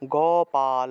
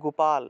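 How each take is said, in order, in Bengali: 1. শব্দটি শেষে স্বরধ্বনি দিয়ে শেষ হয়। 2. শব্দটি শুধু ব্যঞ্জনে শেষ হয়। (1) "সংস্কৃত উচ্চারণটা হবে গোপাল" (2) "আমরা আমরা কি বলে ফেলি গোপাল, এটা গোপাল হবে না"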